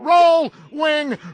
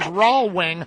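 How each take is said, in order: First: The first syllable sounds like 'roll', with L. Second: The first syllable sounds like 'raw', no L. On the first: The speaker calls it right. "Roll Wing Road from the Ponytail" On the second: The speaker calls it wrong. "it was mispronounced by all those traffic reporters"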